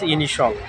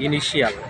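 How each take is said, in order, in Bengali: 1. শেষের অংশটি এক ভাগে উচ্চারিত হয়, shul। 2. শেষের অংশটি দুই ভাগে উচ্চারিত হয়, shee-ul। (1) "কিন্তু আসলে এর উচ্চারণ হচ্ছে ইনিশল" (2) "আমরা বলি ইনিশিয়াল"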